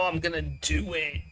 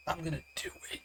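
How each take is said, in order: First: Said in the usual way. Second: Whisper. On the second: Acted. Player whispering mischievous decision.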